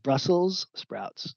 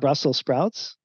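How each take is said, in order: First: The first word ends with an s sound. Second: The first word ends without an s sound. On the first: The speaker calls it right. "It's spelled with an S" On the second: The speaker calls it wrong. "it's not Brussels sprouts"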